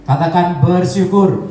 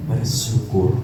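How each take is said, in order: First: Louder, slow call to repeat; preacher leading the congregation to repeat. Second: Said in the usual way. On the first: Shown as a demonstration. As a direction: call the word out slowly.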